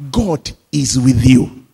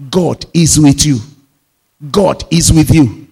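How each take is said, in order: First: Said in the usual way. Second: Louder, punching each word; ringing pulpit declaration; loud proclamation. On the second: Shown as a demonstration. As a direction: proclaim it to the whole church. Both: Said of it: "repeated three times with growing force".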